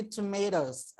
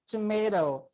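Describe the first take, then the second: First: "tomatoes" with the ending clearly sounded; plural tomatoes. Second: "tomato" said as one clean word ending on the O, no S; teacher models the singular form "tomato" with no ending. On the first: Teacher shows class the plural, ending clearly voiced. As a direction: give "tomatoes" a clear Z-like ending on the last syllable. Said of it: "But if more than one". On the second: Teacher shows class the one-item word, plain singular. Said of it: "if only one". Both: Shown as a demonstration.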